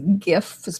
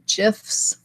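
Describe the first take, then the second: First: It begins with a hard g sound. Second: It begins with a soft j sound. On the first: The speaker calls it right. "the correct pronunciation, I've been told, is GIFs because it is a, an acronym that stands for graphical" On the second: The speaker calls it wrong. "Some people say GIFs"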